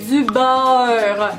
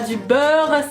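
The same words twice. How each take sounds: First: The vowel is diphthongized, Québécois style. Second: The vowel is a plain standard French eu. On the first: The speaker calls it right. "Le son E au Québec se prononce A E" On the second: The speaker calls it wrong. "C'est pas"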